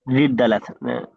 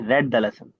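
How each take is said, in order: First: The word read has a long ee vowel. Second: The word read has a short e vowel. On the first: The speaker calls it wrong. "नहीं रीड the lesson नहीं" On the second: The speaker calls it right.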